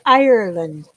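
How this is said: It is said in an imitated Irish accent. "I do a really bad Irish accent"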